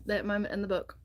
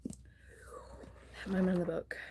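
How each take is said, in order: First: Said in the usual way. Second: Soft, slow whispered repeat. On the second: Shown as a demonstration. The vlogger hushes her voice for a secret moment: whisper. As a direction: hush it like a secret.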